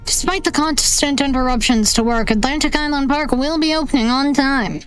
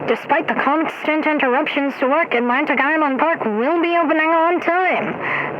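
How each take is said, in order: First: It is said in his natural voice. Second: It is said through a voice changer.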